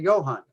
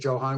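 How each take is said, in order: First: The name begins with a Y sound. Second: The name begins with an English J sound. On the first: The speaker calls it right. "We say Johann" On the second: The speaker calls it wrong. "we don't say Johann"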